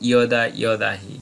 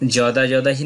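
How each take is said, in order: First: The words begin with a y sound. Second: The words begin with a j sound. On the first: The speaker calls it right. "বলবো ইয়দা ইয়দাহি" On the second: The speaker calls it wrong. "যদা যদাহি না বলে"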